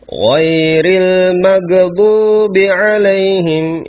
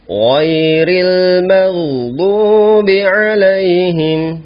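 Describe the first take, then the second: First: The gh sound is stopped with a bouncing release. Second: The gh sound flows continuously without a stop. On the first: The speaker calls it wrong. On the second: The speaker calls it right. "ya suaranya mengalir"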